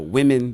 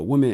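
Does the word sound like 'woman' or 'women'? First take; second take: women; woman. First: The word sounds like plural 'women'. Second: The word sounds like singular 'woman'. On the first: The speaker calls it right. "so that I know it's women instead of woman" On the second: The speaker calls it wrong. "I say woman wrong all the time"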